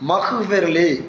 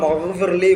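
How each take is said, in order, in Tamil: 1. நடுவில் உள்ள மெய் ஒலி குரலற்ற kh ஒலி. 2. நடுவில் உள்ள மெய் ஒலி குரல் பெற்ற gh ஒலி. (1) "காவு வந்துடும்" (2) "அந்த இடத்துல என்ன வருதுன்னா ஒயின் வருது"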